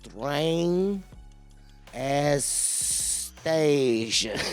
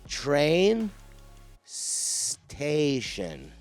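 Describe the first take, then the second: First: An extra vowel is inserted before the second word. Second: The two words join with no added vowel.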